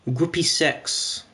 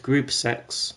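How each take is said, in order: First: Slow "Groupie sex", ending the first word in -ie; "Groupie sex" mispronounced. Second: "group sex" said lower, as a correction; "group sex" as the supposedly proper pronunciation. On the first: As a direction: say "Groupie sex" with two syllables in Groupie. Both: Shown as a demonstration. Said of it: "as it's properly pronounced".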